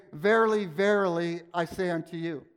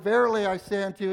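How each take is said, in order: First: Solemn emphatic "Verily, verily". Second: Fast, throwaway "Verily, I say unto you"; rushed through. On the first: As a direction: hit "Verily" hard, then stretch "verily". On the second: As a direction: rattle it off quickly. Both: Shown as a demonstration. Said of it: "So it wasn't like".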